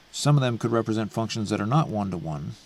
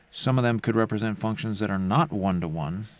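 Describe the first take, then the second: The two takes are said the same way.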